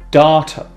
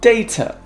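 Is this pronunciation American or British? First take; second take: American; British. First: It is said in American English. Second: It is said in British English.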